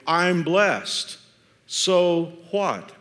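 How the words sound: It sounds like a sincere, open question.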